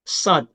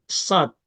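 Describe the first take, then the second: No difference in how they are said.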